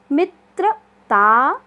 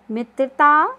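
First: मित्रता drawn out very slowly, each syllable apart, त्र clear; teacher sounding out मित्रता syllable by syllable; slow syllable demo. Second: Said in the usual way. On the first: Shown as a demonstration. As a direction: spell मित्रता out slowly for the class. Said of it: "मिलके बनता है त्रा". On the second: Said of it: "quick recap of words".

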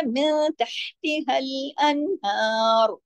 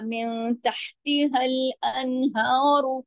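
First: Slow, drawn-out recital, closing अनहार on a silent final r; stopping recitation. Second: Very slow recital, अनहार ending in an open short u; continuing recitation. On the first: Teacher shows how to stop at the verse end, slow recitation ending अनहार without a vowel. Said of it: "अगर हम रुकते हैं तो". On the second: Teacher shows the unstopped reading, slow recitation with a u ending on अनहार. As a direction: draw it out and add a short u after अनहार. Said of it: "अगर हम रुकते हैं तो, या". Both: Shown as a demonstration.

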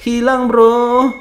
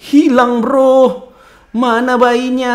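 First: Very slow, stretched-out repeat; slow drawn-out loud lament. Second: Loud, high alarmed report; loud high startled cry. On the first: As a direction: drag each word out in disbelief. Repeats it slowly. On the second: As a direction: blurt it out in alarm. Alarmed the baby is gone. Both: Real, not acted.

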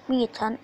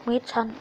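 The two takes are said the same way.

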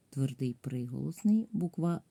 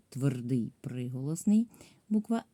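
Both takes have the same delivery.

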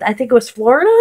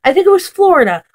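First: "Florida" lifted at the end, doubtful; unsure question. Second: "Florida" falling, firm and quicker; settled answer. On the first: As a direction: ask it half to yourself, unsure. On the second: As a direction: state it, now sure. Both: Real, not acted. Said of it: "what, where was it?".

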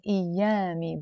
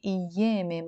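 First: أيامي as ayyami with a; song-style a vowel. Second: أيامي as iyeme; e vowels in أيامي, Lebanese way. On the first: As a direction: open a in أيامي, as sung. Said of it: "in the song he's saying". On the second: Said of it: "in Lebanese we say". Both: Shown as a demonstration.

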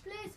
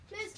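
No difference in how they are said.

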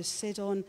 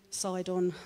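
First: Sidon said as SID-on; short i in Sidon, like "sit"; first try at a name. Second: Sidon said as SIGH-dn; long i in Sidon, like "side"; corrected pronunciation. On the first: Reader trying the town's name Sidon as SID-on. Tries name, then says it differently. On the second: Reader correcting the town's name Sidon to SIGH-dn. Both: Real, not acted.

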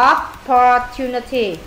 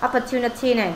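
First: Opportunity drawn out slowly, each syllable clear; slow model word. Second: Said in the usual way. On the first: Shown as a demonstration. Teacher modeling a word for the pupil, slow and clear. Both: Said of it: "Nó có từ gì?".

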